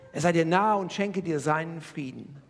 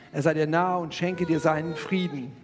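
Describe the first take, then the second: The two takes are said the same way.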